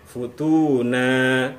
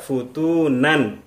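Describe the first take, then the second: First: The word ends in a lengthened 'a' vowel. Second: The word ends with the nunation 'an'. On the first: The speaker calls it right. "dipanjangkan karena ada alif di akhirnya" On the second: The speaker calls it wrong. "tidak kita baca futunan"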